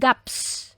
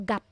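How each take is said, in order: First: Both final consonants are sounded, ending in s. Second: Only the first final consonant is sounded. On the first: The speaker calls it wrong. "hindi yan gaps" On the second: The speaker calls it right. "You only need to pronounce the first one"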